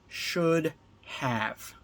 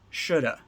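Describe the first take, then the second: First: Both words are said fully and separately. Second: The second word shrinks to a short 'a' vowel.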